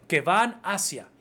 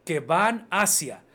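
Both takes have the same delivery.

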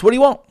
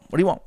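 First: Higher, louder playful push; pressing offer. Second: Said in the usual way. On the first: Retold or imitated. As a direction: egg her on to choose. Repeating offer to customer.

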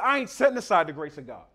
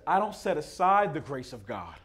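First: Faster, punchier with stress on "I"; emphatic. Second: Said in the usual way. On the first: Retold or imitated. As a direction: hit "I" hard, colloquial "ain't". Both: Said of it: "he said".

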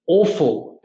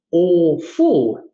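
First: Said in the usual way. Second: "awful" drawn out as two parts, AWE-FULL; split into awe-full. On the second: Shown as a demonstration. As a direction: pull "awful" apart to show the awe in it. Introduces awful as awe plus full.

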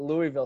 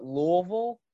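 First: Louisville said "LOO-ee-vil", with a clear ee; outsider pronunciation. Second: Louisville said "LOO-uh-vul", middle blurred; local pronunciation. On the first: Interviewer contrasting with local usage, Louisville as "LOO-ee-vil". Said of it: "and not Louisville". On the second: Interviewer showing how Knoxville people say it, Louisville as "LOO-uh-vul". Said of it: "they call it Louisville". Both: Shown as a demonstration.

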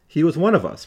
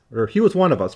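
First: "one" leaned on in "he was one of us"; stress on one. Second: "was" leaned on in "he was one of us"; stress on was. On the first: The lecturer weighing whether the man was one of them, stress on "one". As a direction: hit the word "one", falling after it. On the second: The lecturer insisting the man really was one of them, stress on "was". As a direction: hit the word "was", falling after it. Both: Shown as a demonstration.

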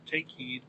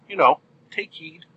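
First: Much softer, near-breath echo of take heed. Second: Said in the usual way. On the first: Shown as a demonstration. Host echoes his spoiler warning, much softer. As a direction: let it fade like an echo.

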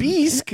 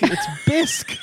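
First: "Bisque" said as "beesk", high and incredulous; high, questioning "beesk" for "Bisque"; mock mispronunciation. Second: "bisque" with a short i, like "bisk"; high, exclaimed correction, "bisque" as "bisk"; corrected pronunciation. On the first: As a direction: echo "Bisque" wrongly as "beesk", in disbelief. Mocks friend's wrong pronunciation. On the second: Shown as a demonstration. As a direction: insist on "bisque" rhyming with "risk".

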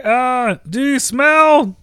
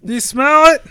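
First: Slow hammy tagline; Rock catchphrase. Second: Louder, punchier take; Rock catchphrase. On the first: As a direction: lean into the famous line. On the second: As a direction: punch the tagline harder. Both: Acted. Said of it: "Rock's signature line".

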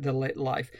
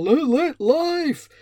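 First: Said in the usual way. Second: High, loud, drawn-out vlogger shout; shouty vlogger voice. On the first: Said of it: "don't actually pronounce it". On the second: Retold or imitated. Mocking how vloggers say their series title, shouty vlogger voice. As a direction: put on a weird shouty vlogger voice. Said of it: "shouty version that vloggers put on".

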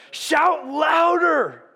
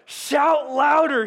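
First: Very slow, higher, louder mocking call; drawn-out taunt. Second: Slow, mocking, higher and louder call; taunting. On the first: Preacher repeats Elijah's taunt to the congregation, drawn out. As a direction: savour every word of the jeer. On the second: Elijah taunts the prophets of Baal, mocking and loud. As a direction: jeer at them, stretching each word. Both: A narrator's reading. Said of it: "Elijah began to taunt them".

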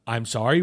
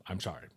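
First: Loud, pointed retold apology; acting out a louder, insistent apology; emphatic apology. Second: Low, subdued mock apology; imitating a reluctant, quiet apology. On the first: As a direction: push the sorry out forcefully. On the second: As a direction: mumble a token sorry, very soft and low. Retold first, half-hearted apology.

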